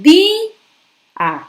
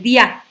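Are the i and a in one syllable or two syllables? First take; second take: two syllables; one syllable. First: The i is stressed and split from the a. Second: The i and a blend into one syllable. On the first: The speaker calls it right. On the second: The speaker calls it wrong.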